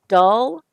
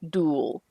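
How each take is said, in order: First: The vowel is a short 'uh' sound. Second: The vowel is a long 'ooh' sound. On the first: The speaker calls it right. "This is an uh" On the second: The speaker calls it wrong. "you pronounced it as a long U"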